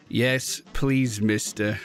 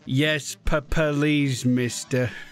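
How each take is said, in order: First: It is said steadily, without any stutter. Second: It is said fearfully, with a stutter. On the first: The speaker calls it wrong. "You didn't stutter!" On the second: The speaker calls it right. "Oh, so immersed"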